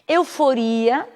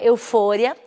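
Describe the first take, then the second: First: The stress falls where Portuguese places it. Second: The stress falls where Spanish places it.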